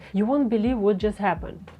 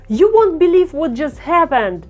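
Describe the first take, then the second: First: It is read plainly with low energy. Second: It is said with a lot of energy.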